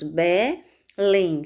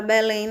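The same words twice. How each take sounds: First: "Belém" split as Be... lém; syllable by syllable. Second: Said in the usual way. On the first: Shown as a demonstration. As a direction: pause between the two syllables of "Belém". ("Belém" em sílabas separadas: Be... lém) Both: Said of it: "Separando as sílabas".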